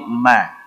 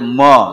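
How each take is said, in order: First: The vowel is open, like a. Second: The vowel is rounded, like o. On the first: The speaker calls it right. "tapi ma" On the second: The speaker calls it wrong. "tidak boleh mo"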